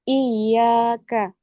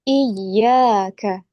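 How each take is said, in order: First: The pitch stays flat on the 'yya' syllable. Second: The pitch rises on the doubled 'yya' syllable. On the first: The speaker calls it wrong. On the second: The speaker calls it right. "Huruf ya tasydid dinaikkan intonasi suaranya"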